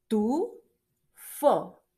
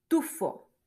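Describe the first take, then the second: First: Tufo split into TU, long pause, FO; teacher slowly sounding out both syllables of "Tufo". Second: Said in the usual way. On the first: Shown as a demonstration. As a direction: break "Tufo" into two separate beats. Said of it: "tiene dos sílabas esa palabra". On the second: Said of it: "la siguiente palabra".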